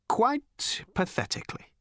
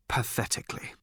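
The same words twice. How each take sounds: First: "Quite pathetically." much higher, voiced and rising in despair; pitched-up lament. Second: Voiceless, softer whisper of "pathetically.". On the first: Slartibartfast lamenting failure, high plaintive "Quite pathetically.". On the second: Acted. Slartibartfast lamenting failure, whispered "pathetically.". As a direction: breathe "pathetically." out with no voice.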